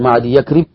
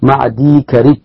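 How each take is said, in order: First: A 'ya' sound comes before 'karib'. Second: No 'ya' sound comes before 'karib'. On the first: The speaker calls it wrong. "لا تقول مع دي يكرب" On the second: The speaker calls it right. "النطق واحد مع دي كرب"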